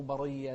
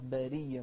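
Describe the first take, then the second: First: برية with a dark, thick ر; wrong heavy ra. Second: برية with a thin "ree"; correct light ra. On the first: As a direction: mistakenly darken the first syllables of برية. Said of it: "لا". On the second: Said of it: "مو برية". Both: Shown as a demonstration.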